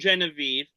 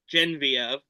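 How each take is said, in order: First: The name is pronounced the English way. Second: The name is pronounced the French way.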